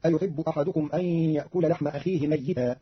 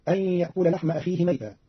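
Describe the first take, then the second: First: "ميتا" said with a doubled, held ya. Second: Said in the usual way. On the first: Shown as a demonstration. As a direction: lean on the ya of "ميتا" as if written twice. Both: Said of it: "قرأ قالون كلمة ميتا بتشديد الياء".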